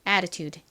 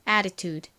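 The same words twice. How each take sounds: First: The middle t sounds like a quick r. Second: The same.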